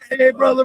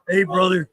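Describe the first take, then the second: First: The voice is light, relaxed and friendly. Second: The voice is deep, low and threatening. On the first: He is in a good mood. "he's pretty chill" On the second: He is in a bad mood. "you get some bass in his voice that'll put the fear of God in you"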